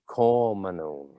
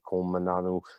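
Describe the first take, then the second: First: It is shortened with fewer added vowels. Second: Every letter is sounded with added vowels. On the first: "the strong syllable" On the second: "the full the full pronunciation method"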